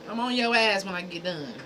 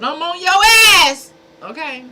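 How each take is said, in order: First: Said in the usual way. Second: High, loud threat at the trolls; threatening yell. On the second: Real, not acted. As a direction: bark it out, suddenly much higher and louder. Threatening trolls in his chat.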